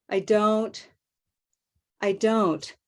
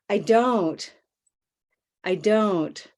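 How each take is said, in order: Both takes have the same delivery.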